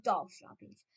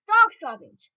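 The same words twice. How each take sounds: First: Said in the usual way. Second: High, very loud outcry; crowd shout. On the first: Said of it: "had taken up the dreaded cry". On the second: A narrator's reading. Assembly of witches taking up the cry, shouting. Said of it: "they shouted".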